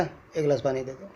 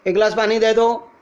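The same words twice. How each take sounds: First: Said in the usual way. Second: Loud, higher-pitched neutral call; calling to someone far. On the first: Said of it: "सामने बैठा". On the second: Shown as a demonstration. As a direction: project the request across a distance. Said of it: "दूर होगा". (दूर बैठे को ऊंची आवाज़ में पुकार)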